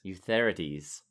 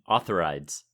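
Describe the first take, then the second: First: The name is said with a Greek-sounding pronunciation. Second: The name is said without a Greek-sounding pronunciation. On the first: "that has a very Greek sound to it" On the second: "Roy Dotrice pronounces it"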